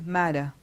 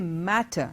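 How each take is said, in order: First: The middle consonant is a soft D-like sound. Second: The middle consonant is a clear T. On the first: This is the American pronunciation. "they will say matter" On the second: This is the British pronunciation. "we say matter"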